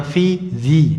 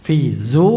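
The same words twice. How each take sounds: First: ZI ending on a long i; the rejected inflected form, "zi"; unneeded genitive ending. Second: DZU held on a long u; the correct quoted form, "dzu"; quoted form kept unchanged. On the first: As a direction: say "zi" with an ee vowel, not oo. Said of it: "tidak perlu di itu". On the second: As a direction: say "dzu" with an oo vowel, not ee. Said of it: "menukil hikayah". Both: Shown as a demonstration.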